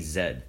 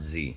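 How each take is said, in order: First: The letter is said the non-American way. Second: The letter is said the American way. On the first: This is how the other person says it. "You say Z" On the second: This is how Americans say it. "not Z. ... Americans say Z"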